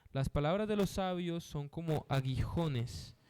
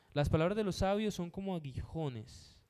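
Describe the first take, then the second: Both takes have the same delivery.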